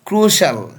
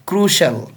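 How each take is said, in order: First: The word is said with two syllables. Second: The word is said with two syllables.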